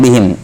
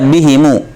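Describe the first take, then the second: First: The word ends on the m consonant. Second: The word ends with an added u vowel. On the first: The speaker calls it wrong. "bukan bihim" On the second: The speaker calls it right. "di dhamma mimnya"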